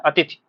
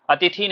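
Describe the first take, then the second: First: अतिथि with a short final i; correct short ending. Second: अतिथि with a long final ee; wrong long ending. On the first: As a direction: keep the last vowel of अतिथि short. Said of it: "क्या बोलना है, अतिथि". (अतिथि, थि में छोटी इ) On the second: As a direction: stretch the last vowel of अतिथि to thee. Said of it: "अतिथि नहीं बोलना है". (अतिथि, थी में बड़ी ई) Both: Shown as a demonstration.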